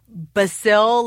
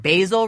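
First: The first syllable sounds like in basilica. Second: The first syllable does not sound like basilica's. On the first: The speaker calls it right. "it's actually basil, like basilica" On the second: The speaker calls it wrong. "I was pronouncing basil wrong"

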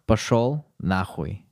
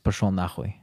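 First: It is said more slowly. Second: It is said at normal speed.

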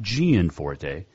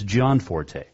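First: The first syllable sounds like 'gee-an'. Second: The first syllable sounds like 'john'. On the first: The speaker calls it wrong. "It is not Gian Forte" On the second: The speaker calls it right. "It is John Forte"

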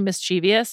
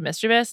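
First: An extra 'ee' sound comes before '-ous'. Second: No extra sound comes before '-ous'. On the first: The speaker calls it wrong. "people say mischievous instead of mischievous, it's like there's no I there" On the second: The speaker calls it right. "instead of mischievous"

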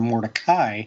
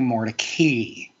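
First: The last syllable rhymes with 'sky'. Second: The last syllable rhymes with 'key'. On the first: This is the original family pronunciation. "change the pronunciation of his last name from More-deh-kai" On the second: This is the changed pronunciation he adopted. "to More-deh-kee"

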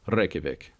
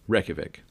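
First: The R is said with a roll. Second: The R is said without a roll. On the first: This is how locals actually say it. The speaker calls it right. "it's actually Reykjavik... So they actually do roll the R for that" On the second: This is how it looks when read. The speaker calls it wrong. "you look at the capital here and it's"

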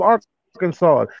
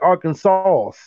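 First: The final S is silent. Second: The final S is pronounced. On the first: "The S is silent"

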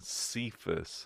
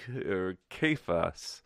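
First: The name begins with a soft S sound. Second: The name begins with a hard K sound. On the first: The speaker calls it wrong. "we've come used to pronouncing Cephas" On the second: The speaker calls it right. "it's spelled with the Greek letter kappa, which looks like our English letter K"

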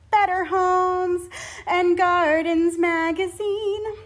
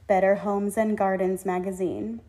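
First: A breath breaks the phrase partway through. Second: The phrase is said in one breath. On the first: The speaker calls it wrong. "You don't say ... That looks like a glamorous place to breathe" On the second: The speaker calls it right. "you say"

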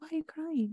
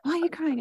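First: It is said in a gentle, caring tone. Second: It is said in a harsh, scolding tone.

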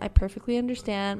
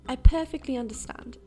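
First: It is said in her own plain accent. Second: It is said in a put-on English accent.

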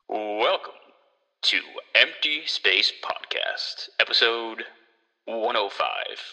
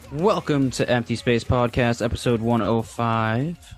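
First: It is said in an old-school radio-host voice. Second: It is said in his normal voice.

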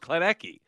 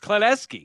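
First: The 'c' is pronounced with a hard K sound. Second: The 'c' is pronounced with an S sound. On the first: The speaker calls it wrong. "I thought it was Klenecky" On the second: The speaker calls it right. "It's Klenecky. ... C is the S sound?"

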